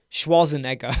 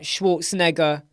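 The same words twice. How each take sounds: First: "Schwarzenegger" with no r, SHWAH-zen-egger; British Schwarzenegger. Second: "Schwarzenegger" with a rolled r, SHVORTS-en-egger; "Schwarzenegger" with the r sounded and a ts; Austrian-style Schwarzenegger. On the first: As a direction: drop the r in "Schwarzenegger". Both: Shown as a demonstration. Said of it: "some people say Schwarzenegger and some say".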